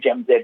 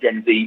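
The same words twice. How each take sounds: First: The letter Z is pronounced 'zed'. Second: The letter Z is pronounced 'zee'. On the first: The speaker calls it right. "I'm going to say Gen Z" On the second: The speaker calls it wrong. "not Gen Z, because I can't abide that"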